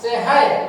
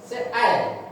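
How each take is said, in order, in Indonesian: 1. Bunyi h terdengar di tengah. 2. Tidak ada bunyi h yang terdengar di tengah.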